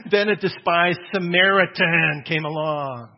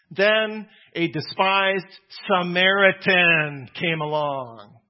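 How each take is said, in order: First: Slow and loud with a laugh in it; emphatic retelling. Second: Slow, loud, each word weighted; emphatic and slow. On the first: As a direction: say "Then a despised Samaritan came along" slowly, louder, with a laugh. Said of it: "without stuttering". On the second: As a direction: lean on despised Samaritan, slowly and louder. Slow emphatic quoting Jesus. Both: Shown as a demonstration.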